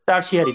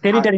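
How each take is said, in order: First: The word is said like 'tersiary', with an s middle. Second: The word is said like 'territary', with an r-t middle. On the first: The speaker calls it right. "টার্সিয়ারি দেখো উচ্চারণটা কি বলে" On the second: The speaker calls it wrong. "টেরিটারি না"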